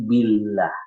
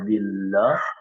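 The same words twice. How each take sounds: First: The l sound is light and thin. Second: The l sound is heavy and dark. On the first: The speaker calls it right. "maka itu tipis dibacanya" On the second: The speaker calls it wrong.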